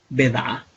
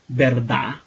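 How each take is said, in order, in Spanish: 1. La palabra se corta, quitando su sonido del medio. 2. La palabra se dice completa, con cada sonido.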